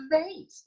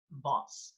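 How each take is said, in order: First: "theys" said with a long AY, American style; American pronunciation. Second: "boss" said with a broad AH, as in vahz; British broad vowel in "boss"; British pronunciation. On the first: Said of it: "like the Americans". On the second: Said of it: "people in Britain? They are fond of saying". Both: Shown as a demonstration.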